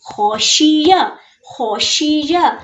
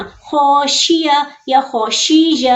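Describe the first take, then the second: First: "खौशिया" with a heavy kh and short ending; correct short vowels. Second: "खौशिया" with a syllable drawn out long; wrongly stretched vowels. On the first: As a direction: say "खौशिया" without stretching the final vowel. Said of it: "ये क्या है?". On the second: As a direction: drag "खौशिया" as a wrong reading. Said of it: "तो यूं नहीं करना". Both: Shown as a demonstration.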